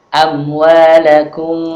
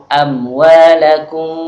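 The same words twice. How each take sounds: Both takes have the same delivery.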